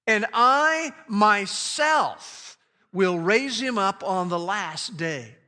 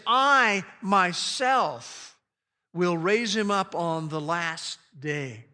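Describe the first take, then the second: First: 重读"myself"，放慢拖长; stress on myself. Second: "myself"极慢，单独停顿后再说下去; stress on myself. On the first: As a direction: lean hard on "myself", slow and weighty. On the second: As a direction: stretch "I myself" very slowly, then pause. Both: Shown as a demonstration. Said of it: "that word myself is very emphatic".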